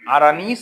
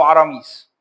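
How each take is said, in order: First: The middle consonant is an n sound. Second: The middle consonant is an m sound. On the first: "اللي بتبني انها بالنون" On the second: "اللي متبني انها بالميم"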